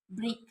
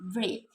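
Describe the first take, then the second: First: The vowel sounds like the 'e' sound. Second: The vowel sounds like the 'a' sound. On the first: The speaker calls it wrong. "but it is pronounced break by the learners" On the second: The speaker calls it right. "In English, this word should be pronounced break"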